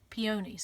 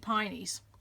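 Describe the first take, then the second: First: The word is said as three syllables, peonies. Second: The word is said as two syllables, pineys. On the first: This is how people elsewhere say it. "they call them peonies" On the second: This is how the speaker's region says it. "We say pineys in our region"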